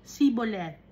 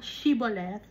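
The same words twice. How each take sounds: First: "Siboleth" with plain S, no H; "Siboleth" starting see, not shee; Ephraimite pronunciation. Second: Said in the usual way. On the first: Shown as a demonstration. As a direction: say "Siboleth" with S replacing SH. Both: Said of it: "nagsasabi ng mga Ephraimites".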